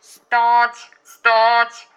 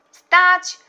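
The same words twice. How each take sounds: First: Very loud, high, sustained orders; police megaphone. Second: Very high, loud halt order; distant shout. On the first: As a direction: bellow a halt through a megaphone. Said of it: "zawołali policjanci przez megafon". (głośny rozkaz jak przez megafon) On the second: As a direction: shout a halt across the water. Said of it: "wołał z daleka wuj". (wysoki, głośny krzyk z daleka) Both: A narrator's reading.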